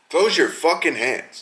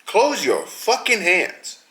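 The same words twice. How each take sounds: First: Said in the usual way. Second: "Close your fucking hands" slow, each word leaned on; slow emphatic order. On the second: Shown as a demonstration. To the fighter who pokes eyes, a slow emphatic order. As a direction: drag out "Close" as a stern command.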